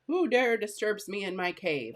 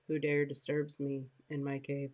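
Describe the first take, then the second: First: The line is said with lively, exciting energy. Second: The line is said flatly, without any excitement. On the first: The speaker calls it right. "when it's exciting to make your voice exciting" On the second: The speaker calls it wrong. "Will you believe what I'm saying, right? Is it sound exciting?"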